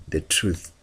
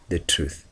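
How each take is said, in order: Both takes have the same delivery.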